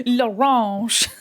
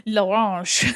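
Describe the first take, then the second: First: Louder hammed-up French accent on L'orange; mock French. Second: Slow, hammed-up French accent on l'orange; mock French. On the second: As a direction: draw out l'orange like a cartoon Frenchman. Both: Shown as a demonstration. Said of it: "I just said".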